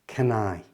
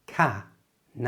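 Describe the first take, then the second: First: It is said at normal speed, run together. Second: It is said slowly, split into two parts. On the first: "And at normal speed" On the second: "So slowly, those two words sound like"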